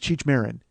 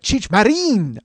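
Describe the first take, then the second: First: The name has a plain American English pronunciation. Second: The name has an exaggerated Spanish-style pronunciation. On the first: "I've always known Cheech Marin as" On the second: "they're saying it like that"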